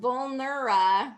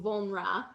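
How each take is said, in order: First: The syllables are said fully and clearly. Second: The middle syllable is reduced and weak.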